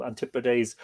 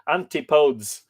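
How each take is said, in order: First: Antipodes said an-TIP-o-deez, stress on the second syllable, ending deez. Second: Antipodes said AN-ti-podes, three syllables, ending like codes. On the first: Teacher trying the pronunciation an-TIP-o-deez of antipodes. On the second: Teacher trying the other pronunciation, AN-ti-podes. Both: Shown as a demonstration. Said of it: "how do you pronounce that?".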